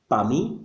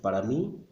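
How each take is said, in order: First: The first word is shortened to one syllable. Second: The first word is said in full, two syllables. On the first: This is casual, fast everyday speech. "what you will hear on the streets" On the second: This is the standard written form. "When we write, of course, we write para mí"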